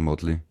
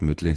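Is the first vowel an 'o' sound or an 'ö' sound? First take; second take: o sound; ö sound. First: The first vowel is a plain back o. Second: The first vowel is a front rounded ö. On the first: The speaker calls it right. "sondern Motley" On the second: The speaker calls it wrong. "die heißen auch nicht Mötley"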